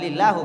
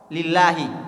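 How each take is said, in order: First: The word ends with a u vowel. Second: The word ends with an i vowel. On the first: The speaker calls it wrong. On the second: The speaker calls it right. "huruf terakhir dari kata tersebut harus kasrah"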